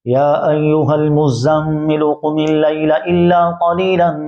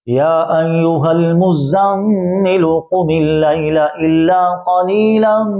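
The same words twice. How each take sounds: First: It is recited quickly but still clearly. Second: It is recited at a moderate, measured pace. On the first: "हदर का माना तेज़ तेज़" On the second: "तो ये है तदवीर।"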